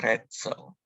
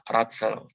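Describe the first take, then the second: First: The first vowel sounds like an 'e'. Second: The first vowel sounds like a plain 'a'. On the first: The speaker calls it right. "tapi Retzel" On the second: The speaker calls it wrong. "bukan dibaca Ratzel"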